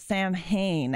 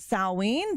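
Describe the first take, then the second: First: It sounds like 'sam-hain', with 'm' and 'h'. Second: It sounds like 'sow-win', with no 'm' or 'h'. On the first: This is how most English speakers say it, following the spelling. "will pronounce it as Sam Hain as it's spelled" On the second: This is how pagans say the name. "we pronounce it Salween"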